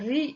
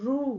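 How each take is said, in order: First: The r is followed by an ee vowel. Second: The r is followed by a long oo vowel. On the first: "ஈ sound முடிகிற மாதிரி" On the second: "ஊ sound மாதிரி"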